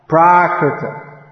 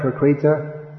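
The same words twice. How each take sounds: First: "Prakrita" slowly as PRAA-kri-tuh; long stressed first syllable in "Prakrita", short KRI; correct Prakrita. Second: "Prakrita" as pruh-KREE-tuh; mispronounced Prakrita. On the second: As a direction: wrongly stretch and stress KRI in "Prakrita". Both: Shown as a demonstration. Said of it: "Is that right?".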